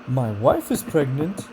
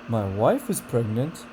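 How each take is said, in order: First: The pitch rises toward the end. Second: The pitch rises toward the end.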